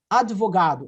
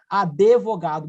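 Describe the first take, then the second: First: The d is followed directly by the v. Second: An extra e vowel is heard after the d. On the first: "é mudo" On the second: "botou uma letra E onde não tinha"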